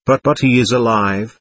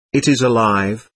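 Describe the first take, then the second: First: Mildly bewildered, stammered "But, but"; bewildered protest. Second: Measured correction, slight weight on "is" in "It is alive"; calmly substitute "It" for he in "It is alive"; correcting. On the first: Narrator answers Taverner's verdict, mildly bewildered. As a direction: protest in understated confusion, "alive" rising. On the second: Taverner corrects the narrator, "It is alive" said evenly. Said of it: "corrected Taverner". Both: A narrator's reading.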